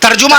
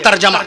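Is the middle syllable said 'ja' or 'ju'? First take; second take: ju; ja. First: The middle syllable has an 'u' vowel. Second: The middle syllable has an 'a' vowel. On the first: The speaker calls it wrong. "तर्जुमा ना कहिएगा" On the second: The speaker calls it right.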